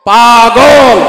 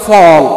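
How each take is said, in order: First: The word is said in full standard form. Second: The word is said shortened, in Chittagonian dialect.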